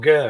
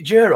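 First: The name begins with a hard g sound. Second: The name begins with a soft j sound. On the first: The speaker calls it wrong. "the tiger sort of Ger" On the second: The speaker calls it right. "it's Jer"

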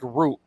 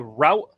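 First: The vowel sounds like the one in 'boot'. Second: The vowel does not sound like 'boot'. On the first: "or do you pronounce it like root" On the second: "do you guys say route, R-O-U-T-E"

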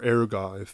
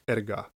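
First: The word has an American-style pronunciation. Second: The word has a Greek-style pronunciation. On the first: "if you want to Americanize it" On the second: "The Greek word for work is erga"

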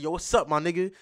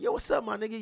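First: It is said in a harsher, unfriendly tone. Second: It is said in a warm, friendly tone. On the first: It is not a friendly greeting. "You understand that's a little different" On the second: It is a friendly greeting. "You understand that's friendly"

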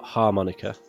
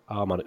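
First: The word begins with an h sound. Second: The word begins with a vowel, no h sound. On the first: It names the mouth instrument. The speaker calls it wrong. "not harmonica. You know, like the cowboy thing" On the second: It names the glass instrument. The speaker calls it right. "It's A-R-M"

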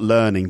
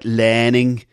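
First: It is said with a standard accent. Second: It is said with a Liverpool accent. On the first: "not learning" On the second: "Liverpool accent. You hear it in things like learning"

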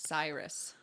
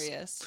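First: The first syllable sounds like 'sigh', rhyming with virus. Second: The first syllable sounds like 'seer', not rhyming with virus. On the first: The speaker calls it wrong. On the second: The speaker calls it right.

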